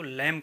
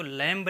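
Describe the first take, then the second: First: लैम ending on M; silent B. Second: लैम्ब with a sounded B; final B pronounced. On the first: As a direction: say लैम with no B at the end. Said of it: "इसको लैम कहेंगे". (लैम, अंत का ब मौन) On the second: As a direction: say लैम्ब, releasing B after M. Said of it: "लैम्ब नहीं कहेंगे". (लैम्ब के अंत में ब बोलकर) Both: Shown as a demonstration.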